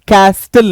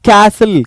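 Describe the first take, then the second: First: A t sound is heard after the s. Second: No t sound is heard after the s. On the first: The speaker calls it wrong. "कैस्टल नहीं" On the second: The speaker calls it right. "ये होगा कैसल"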